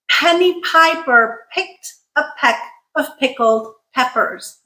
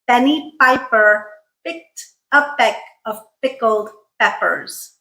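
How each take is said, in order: First: Word-initial p sounds have a puff of air. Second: The p sounds have no puff of air. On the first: "with aspiration in all the correct places" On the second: "if I say this without aspiration"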